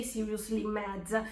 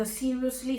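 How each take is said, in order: First: Seething mutter. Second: Said in the usual way. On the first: Real, not acted. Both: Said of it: "just reading these messages made me mad".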